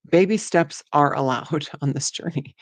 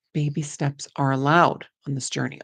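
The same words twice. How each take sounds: First: Laughing. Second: Said in the usual way. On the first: Real, not acted.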